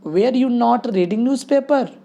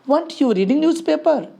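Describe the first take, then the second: First: 'Not' is said as a separate full word. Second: 'Not' is contracted onto the verb as 'weren't'. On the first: "वेयर और नॉट इधर है" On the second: "अगर हम वंट बोलते हैं"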